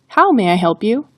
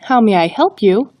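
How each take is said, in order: First: The word how carries the emphasis. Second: The word help carries the emphasis. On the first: "the emphasis is on the word how" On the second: "the emphasis is on the word help"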